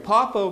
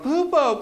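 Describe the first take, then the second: First: The first vowel sounds like 'oh'. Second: The first vowel sounds like 'oo'. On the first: This is the name as intended. "you go, Popo" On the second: A small child mispronounces the name. "it does not come out Popo. It comes out Poopo"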